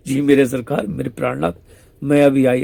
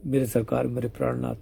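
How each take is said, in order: First: Coy imitation. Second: Soft, tender address to the beloved; tender murmur. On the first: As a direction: copy her tender words a touch showily. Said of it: "ऐसे करके". (हल्की नकल करती मीठी, नखरीली आवाज़) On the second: Retold or imitated. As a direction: say it lovingly, much softer. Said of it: "ऐसे बोलते हैं". (धीमी, कोमल प्रेम भरी आवाज़)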